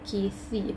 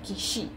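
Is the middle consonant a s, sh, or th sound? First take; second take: th; sh. First: The middle consonant is a soft th sound. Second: The middle consonant is a sh sound. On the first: The speaker calls it right. "bite your tongue" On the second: The speaker calls it wrong. "Not kishi"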